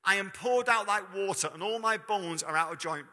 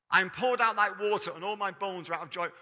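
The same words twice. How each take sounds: First: Said in the usual way. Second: I am poured out opened louder and higher; a ringing reading of the psalm; louder, higher scripture reading. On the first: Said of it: "this is what it says". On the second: Shown as a demonstration. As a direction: proclaim the verse again with force. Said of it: "Bear in mind".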